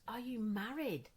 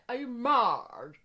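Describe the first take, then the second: First: It is said in a plain, everyday accent. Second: It is said in a very posh accent. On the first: "And it was" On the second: "But she was so posh, she didn't say married. She was like"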